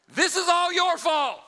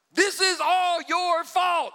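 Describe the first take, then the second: First: High, loud, slow accusing yell. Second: Slow, loud, high blaming yell, each word drawn out. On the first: Sarah yells at Abram, high slow accusation. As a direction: blame him at full volume. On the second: Sarah yelling at Abram, slow high angry shout. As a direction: drag out the blame. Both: Acted. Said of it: "so she's yelling".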